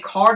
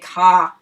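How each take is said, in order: First: The final r sound is pronounced. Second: The final r sound is dropped. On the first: "if they say car" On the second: "they say ka"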